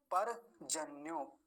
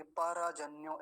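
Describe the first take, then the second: First: Slow परजन्यो as par-janyo; half र. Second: परजन्यो as pa-ra-janyo; wrong full र. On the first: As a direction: close पर on र, no vowel after it. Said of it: "आधा है तो आधा ही बोलेगा". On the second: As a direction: add a vowel after र in परजन्यो. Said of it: "ऐसा नहीं बोलेंगे". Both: Shown as a demonstration.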